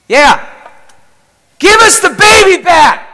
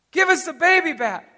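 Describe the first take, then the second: First: Full-force high scream, imitating the son. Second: High, milder imitated scream; mock scream. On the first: Son screams at Jesus for the baby, screaming. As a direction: scream it at the top of your lungs. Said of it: "screams out at the top of his lungs". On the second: Father quotes his son's scream to a friend, mock scream. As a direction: quote the child's scream at reduced force. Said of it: "He's screaming".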